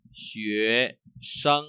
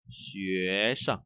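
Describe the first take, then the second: First: Sân held level and full. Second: Soft, low xuế rising, sân brief; light tone on sân. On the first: Teacher shows first reading, sân with full tone. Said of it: "chúng ta có thể có hai cái đọc". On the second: Teacher shows second reading, sân unstressed. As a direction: let sân fall light and short. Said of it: "hay là". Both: Shown as a demonstration.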